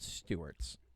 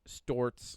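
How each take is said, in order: First: The name is said with two syllables. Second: The name is said with one syllable.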